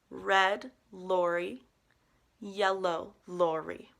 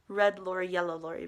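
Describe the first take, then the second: First: The phrase is said slowly. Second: The phrase is said quickly. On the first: "one more time slowly" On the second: "Which fast would be"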